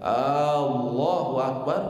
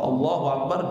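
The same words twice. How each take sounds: First: The first vowel of Allahu is drawn out long. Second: The first vowel of Allahu is short. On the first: It asks whether God is the greatest. The speaker calls it wrong. "ketika ditambah hamzahnya" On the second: God is the greatest. The speaker calls it right. "jelas Allah Maha Besar"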